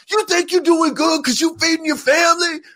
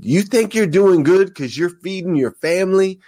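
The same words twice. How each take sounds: First: Full-tilt pumped-up preacher shout; very high-pitched, strained yell; Eric Thomas impression. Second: Pumped-up preacher, high-pitched challenge; Eric Thomas impression. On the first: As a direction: imitate a hip hop preacher screaming a challenge. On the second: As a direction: start the hip hop preacher imitation, voice lifted high. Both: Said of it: "He gets all pumped up".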